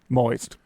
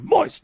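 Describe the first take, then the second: First: It is said in a plain, normal voice. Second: It is said in an anime-character voice.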